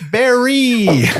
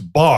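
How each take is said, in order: First: The name is said as two syllables, 'berry'. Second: The name is said as one syllable, 'bar'. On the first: The speaker calls it right. "No, it's Barry" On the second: The speaker calls it wrong. "the stewardess comes on and say"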